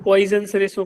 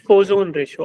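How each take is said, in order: First: The first syllable has an 'oy' sound. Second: The first syllable has a plain 'o' sound. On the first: The speaker calls it wrong. "इसको पॉइजन ratio कोई नहीं बोलेगा" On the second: The speaker calls it right. "आई इसमें silent रखो"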